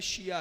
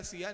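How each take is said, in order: First: शिया said with a clear sh at the start; correct sh sound. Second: सिया with a plain hissed s, not sh; wrong sibilant. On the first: Preacher correcting the questioner, शिया with clear sh. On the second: Preacher quoting a questioner's misspelling, सिया with plain s. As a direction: say सिया with a sharp s sound as the mistaken form. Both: Shown as a demonstration. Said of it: "सिया नहीं है, शिया है वो".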